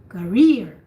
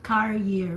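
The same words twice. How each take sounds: First: The stress is on the second syllable. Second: The stress is on the first syllable. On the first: The speaker calls it right. "the rear is the one that you hear" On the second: The speaker calls it wrong. "it's not career"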